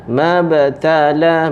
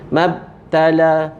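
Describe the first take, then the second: First: The b is released with a small bounce. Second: The b is held closed without a bounce. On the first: The speaker calls it right. "dia ada detak, detak kecil" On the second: The speaker calls it wrong. "jangan kita tutup mulut. Mabtala, tak mau"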